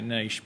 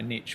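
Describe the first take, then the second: First: The word is said the speaker's own way. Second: The word is said the American way. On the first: This is how the speaker's people say it. "we say niche" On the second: This is how Americans say it. "we don't say niche"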